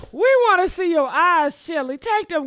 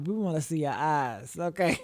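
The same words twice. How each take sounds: First: Higher and louder, shouting at the screen; loud teasing call at Chili. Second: Quiet sly aside; soft teasing aside. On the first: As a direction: call it out like she can hear you. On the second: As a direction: lower and softer, a murmured tease. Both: Real, not acted.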